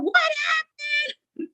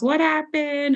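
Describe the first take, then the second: First: Granny freaking out. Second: Screaming granny. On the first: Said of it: "my granny's freaking out". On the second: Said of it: "screaming at us". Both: Retold or imitated.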